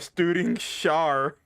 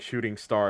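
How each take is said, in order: First: The first word begins with st, the second with sh. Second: The first word begins with sh, the second with st. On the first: The speaker calls it wrong. "I flipped the two syllables back" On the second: The speaker calls it right. "Instead of saying shooting star"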